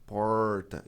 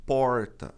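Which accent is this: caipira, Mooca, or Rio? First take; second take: caipira; caipira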